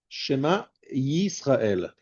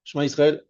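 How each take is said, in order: First: Shema, then a very slow Yisrael with a clear initial y; stressed Yud. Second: Said in the usual way. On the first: Shown as a demonstration. Teacher correcting a hurried reading, stressed Yud. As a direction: separate Shema from Yisrael, leaning on the y. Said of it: "Donc tu insistes sur le Yud".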